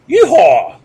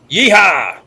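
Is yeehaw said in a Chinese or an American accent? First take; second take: Chinese; American. First: It is said in a put-on Chinese accent. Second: It is said in an ordinary American accent. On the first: The cowboy cry as Chinese cowboys would say it. "they will say" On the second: The usual cowboy cry. "instead of saying"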